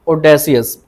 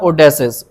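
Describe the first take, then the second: First: The ending is said as two syllables, see-us. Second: The ending is said as one syllable, shus. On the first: The speaker calls it wrong. "इसको ओडेसियस नहीं बोलना" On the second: The speaker calls it right. "ओडेसिस pronounce करें"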